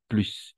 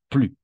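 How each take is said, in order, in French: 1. Le S final est prononcé. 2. Le S final est muet. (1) "Avec le S, connotation positive" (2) "sin la S"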